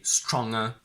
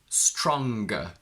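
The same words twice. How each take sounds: First: The ng is not followed by a g. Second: A hard g follows the ng sound. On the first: The speaker calls it wrong. "We can't say stronger" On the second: The speaker calls it right. "we don't keep the ng, but we go ng"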